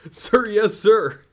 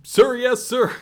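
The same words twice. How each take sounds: First: Loud, high recruit shout; barked sir yes sir. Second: Louder, higher recruit shout; barked sir yes sir. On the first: Recruit answering drill sergeant. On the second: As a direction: shout it back even harder. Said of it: "I can't hear you". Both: Acted.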